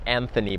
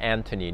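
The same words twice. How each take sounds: First: The middle consonant is a 'th' sound. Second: The middle consonant is a plain 't' sound. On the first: The speaker calls it wrong. "not Anthony" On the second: The speaker calls it right. "but Anthony, no H"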